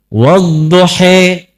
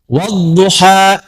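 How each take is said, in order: First: The final vowel is pronounced as 'e'. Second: The final vowel is pronounced as open 'a'. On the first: "diturunkan Al-Quran bisa dibaca pakai E" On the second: This is how the speaker's own community reads it.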